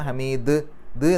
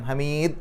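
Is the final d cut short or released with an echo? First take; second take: echoed; cut short. First: The final d bounces with an audible echo. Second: The final d is cut short without release. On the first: The speaker calls it right. "ദ് എന്നുള്ളത് വെളിവായി കേൾക്കണം" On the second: The speaker calls it wrong. "ഹമീദ് എന്ന് പറഞ്ഞാൽ പോരാ"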